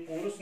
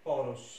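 First: पुरुष with a narrow first vowel; wrong form. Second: पौरुष with a wide "au"; corrected form. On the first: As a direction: say पुरुष as po-rush, no "au". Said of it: "ये पुरुष नहीं". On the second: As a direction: lower पौरुष, said as pau-rush. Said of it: "ये होता है". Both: Shown as a demonstration.

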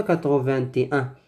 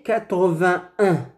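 First: Quatre-vingt-et-un with t linked into an extra et; quick counterexample, quatre-vingt-et-un said as vin-té-un at the end; wrongly added « et ». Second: Quatre-vingt-un with vingt going straight into un; sans « et ». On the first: (quatre-vingt-et-un, la faute avec « et » ajouté) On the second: (quatre-vingt-un, correct, sans « et ») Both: Shown as a demonstration. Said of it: "Ce n'est pas quatre-vingt-et-un".

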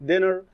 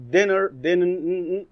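First: Said in the usual way. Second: "dinner" said slowly, then broken off at "din-" to isolate the double N; syllable by syllable. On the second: Shown as a demonstration. Teacher to class, breaking down the word: slow syllable split. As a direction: stretch out "dinner" and cut to "din-". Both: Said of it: "dinner، din-، dinner".

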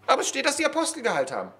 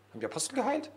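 First: Fast, high protest, falling at "geheilt haben"; insistent objection. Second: Soft question, rising high on "geheilt"; doubting question. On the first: Preacher voicing an objector citing the text, quick high protest. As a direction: rattle it off high, ending "geheilt haben" on a fall. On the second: Preacher voicing a doubter's question about the apostles, soft rising tune. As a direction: ask it quietly, lifting "geheilt" into a question. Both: Pretend.

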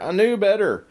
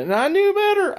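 First: Said in the usual way. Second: Knew jumps way up high; stress on knew. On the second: Real, not acted. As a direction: hit "knew" hard and high. Emphatic self-reproach.

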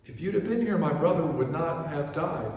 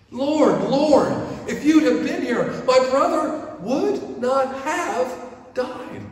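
First: Said in the usual way. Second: High, loud cry of Lord, slowing on the last words; Lord, why weren't you here, wailed high; anguished pleading. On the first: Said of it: "Past tense". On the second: Retold or imitated. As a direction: plead like a grieving sister. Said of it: "Martha and Mary both plead to him".

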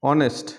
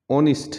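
First: অনেস্ট with e in the second syllable; common mispronunciation. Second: অনেস্ট with short i in the second syllable; correct pronunciation. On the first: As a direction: say অনেস্ট as "o-nest". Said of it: "common কিছু শব্দের". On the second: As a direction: say অনেস্ট as "ON-ist". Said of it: "ও সঠিক উচ্চারণ". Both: Shown as a demonstration.

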